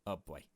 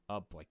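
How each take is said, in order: Both takes have the same delivery.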